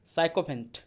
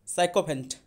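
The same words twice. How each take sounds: The two takes are said the same way.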